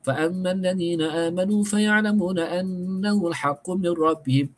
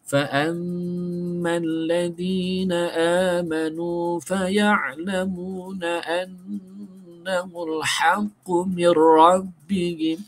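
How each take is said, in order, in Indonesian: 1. Ayat ini dibaca dengan tempo cepat. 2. Ayat ini dibaca dengan tempo sedang. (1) "orang yang baca laju macam ni" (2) "Itu bacaan secara tertil murattal, laju sederhana"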